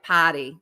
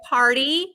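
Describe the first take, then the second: First: The word is said with the r dropped. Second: The word is said with the r sounded. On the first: "I'm like potty" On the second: "Can you say party?"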